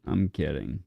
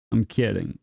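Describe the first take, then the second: First: Murmured aside. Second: Said in the usual way. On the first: Real, not acted.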